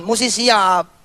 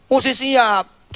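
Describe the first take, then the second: First: Said in the usual way. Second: "Mesti siap" said very slowly, each word weighed; emphatic repeat. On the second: Shown as a demonstration. Preacher stresses "Mesti siap" slowly to his listeners. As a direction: press home "Mesti siap" slowly to the congregation.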